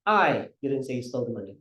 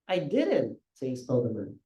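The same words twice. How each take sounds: First: The word I carries the stress. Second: The word didn't carries the stress. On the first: Someone else said it, not the speaker. "simulan natin sa I" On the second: The speaker denies having said it. "Hindi ko sinabi"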